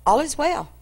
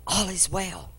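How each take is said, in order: First: Said in the usual way. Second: Quiet reply. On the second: Acted. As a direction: murmur it without looking at him.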